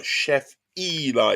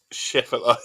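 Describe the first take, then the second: First: "Chef Eli" slow, with a long EE-lie; corrected name pronunciation. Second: "Chef alive" run together, first attempt at a name; butchered name. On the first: Shown as a demonstration. Streamer checking he has the name right, slow careful pronunciation. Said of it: "Is that correct?". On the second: Real, not acted. Streamer misreading a viewer's name, butchered pronunciation. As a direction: say "Chef alive" as one word, without a long EE. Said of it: "'cause I'm butchering it".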